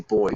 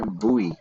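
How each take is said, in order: First: The word is said like the word boy. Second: The word is said the American way. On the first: "But I always just say boy" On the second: "I've heard Americans pronounce it as like buoy"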